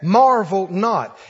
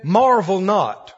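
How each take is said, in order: First: Preacher repeating scripture for weight; slow emphatic repeat. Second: Solemn slow scripture line; slow emphatic quote. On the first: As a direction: marvel not, again slow and weighty on marvel. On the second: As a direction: marvel not, drawn out slow with stress on marvel. Scripture phrase said slowly. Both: Acted.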